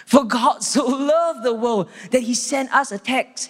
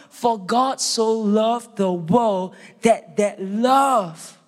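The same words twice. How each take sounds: First: A touch higher, light and breezy, a little slowed; mock trivial version. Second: Very slow, weighty delivery, falling hard on "love"; solemn true reading. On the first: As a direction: toss it off as if it were a small favour. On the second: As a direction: draw it out with reverence and weight. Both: Shown as a demonstration. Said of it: "It's not".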